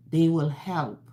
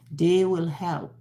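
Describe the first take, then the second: No difference in how they are said.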